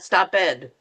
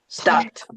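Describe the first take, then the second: First: The ending is said as an extra syllable. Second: The ending is said as a single t sound. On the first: The speaker calls it wrong. "not stop ed because people will go, what is that?" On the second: The speaker calls it right. "You actually have to change that to the t"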